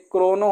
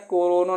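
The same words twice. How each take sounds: First: क्रोनो with k and r run together; correct "kro" cluster. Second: कोरोनो with an o between k and r; split "ko-ro" mistake. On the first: Teacher corrects students, क्रोनो starting with a tight "kro". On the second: Teacher mimics students' mistake, कोरोनो split as "ko-ro-no". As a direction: say कोरोनो as three syllables, "ko-ro-no". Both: Shown as a demonstration. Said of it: "कोरोनो नहीं होता है".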